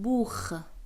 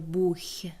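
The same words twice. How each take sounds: First: The word ends in a harsh kh sound. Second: The word ends in a soft sh-like sound. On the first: The speaker calls it right. "میگیم بوخ" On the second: The speaker calls it wrong. "دیگه نمیگیم اینجا بوخ"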